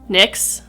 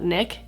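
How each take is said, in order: First: The word ends with a ks sound. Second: The word ends with a plain k sound. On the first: The speaker calls it right. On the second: The speaker calls it wrong. "not Nick"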